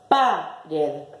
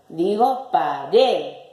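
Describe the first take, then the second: First: The stress is on the first syllable. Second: The stress is on the last syllable. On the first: The speaker calls it wrong. "Vamos a acentuar la primer sílaba" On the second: The speaker calls it right. "La sílaba tónica es la última"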